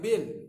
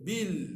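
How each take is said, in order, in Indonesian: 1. Suku kata itu diucapkan tebal dan berat. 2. Suku kata itu diucapkan tipis dan ringan.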